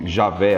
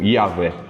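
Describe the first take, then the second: First: The name begins with a J sound. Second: The name begins with a Y sound. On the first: It follows the Portuguese reading. "as pessoas falam Javé às vezes" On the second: It is closer to the original Hebrew. "Porque você não tem som de J, literalmente, no hebraico"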